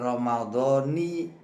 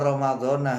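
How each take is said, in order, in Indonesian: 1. Kata itu berakhir dengan vokal 'i'. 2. Kata itu berakhir dengan vokal 'a'. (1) "ditandai kas kasrah Ramadhani" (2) "bukan fathah"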